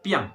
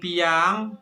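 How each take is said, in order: First: The word is said quickly and compactly. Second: The word is said slowly and drawn out. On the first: The speaker calls it right. "tapi bacanya piang. Lebih cepat ya" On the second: The speaker calls it wrong. "Jangan bacanya jangan piang"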